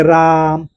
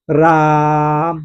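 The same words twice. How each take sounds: First: Said in the usual way. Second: राम with the आ drawn out very long and slow; हold राम's vowel as if calling from far; stretched pluta vowel. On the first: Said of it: "इसे अ पढ़ते हैं". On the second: Shown as a demonstration. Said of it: "थोड़ा सा टानते हैं". (राम को प्लुत स्वर में खींचकर बोलें)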